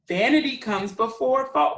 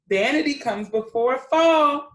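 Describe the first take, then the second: First: Scolding. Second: A touch of stern scolding, a bit louder; lightly scolding. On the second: Older cockatoos scold the vain one, mild scolding. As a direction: chide the vain bird mildly. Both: Acted. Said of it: "they scolded".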